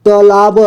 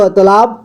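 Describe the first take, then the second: First: "तालाब" split as taa-laa-ba; beginner's reading of "तालाब" as taa-laa-ba; sounded out letter by letter. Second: Said in the usual way. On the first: Shown as a demonstration. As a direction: voice each syllable of "तालाब", final ba included. Teacher sounds out, then reads whole.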